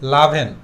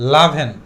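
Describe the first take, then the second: The two takes are said the same way.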